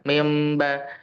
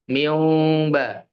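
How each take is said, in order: First: The lips lightly close, giving an m sound. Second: The lips stay apart, giving a vowel glide. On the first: The speaker calls it right. "merapatnya itu ya asal sentuh saja" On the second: The speaker calls it wrong. "Itu saya katakan salah"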